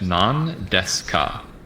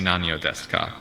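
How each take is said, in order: First: No vowel follows 'nan' before 'deska'. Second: A vowel follows 'nan' before 'deska'. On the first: The speaker calls it right. "that ending I gets dropped" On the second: The speaker calls it wrong. "You wouldn't say Nanyo Deska"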